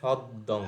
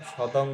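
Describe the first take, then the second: First: The d sound is held long and doubled. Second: The d sound is short and single. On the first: The speaker calls it right. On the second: The speaker calls it wrong. "না, সদং নয়"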